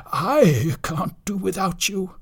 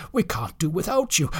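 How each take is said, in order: First: I drawn out and raised; heartfelt appeal leaning on a long I; stress on I. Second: Said in the usual way. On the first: Acted. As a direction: plead with all the weight on I. Sid pleads, changes we to I.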